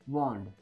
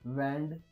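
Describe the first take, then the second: First: The vowel is an open, rounded 'ah' sound. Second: The vowel is a flat, front 'a' sound. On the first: The speaker calls it right. "ए चा उच्चार अ" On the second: The speaker calls it wrong. "नाही"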